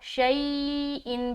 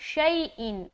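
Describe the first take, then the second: First: The vowel glide is stretched out long. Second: The vowel glide is quick and short. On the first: The speaker calls it wrong. "शई इन भी गलत है, लंबा भी नहीं करना" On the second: The speaker calls it right. "मारूफ पढ़ना है"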